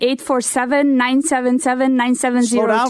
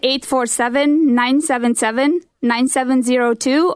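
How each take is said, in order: First: The number is said fast. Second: The number is said slowly.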